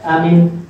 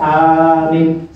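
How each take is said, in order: First: Both vowels are kept short. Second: Only the first vowel is held long. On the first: "Dua-duanya pendek" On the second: "Yang panjang hamzahnya, mimnya pendek"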